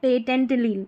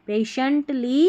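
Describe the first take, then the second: First: The middle consonant is a t sound. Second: The middle consonant is an sh sound. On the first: The speaker calls it wrong. "पेटेंटली नहीं पढ़ेंगे" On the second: The speaker calls it right. "इसको श पढ़ा जा रहा है"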